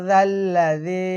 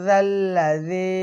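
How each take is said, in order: No difference in how they are said.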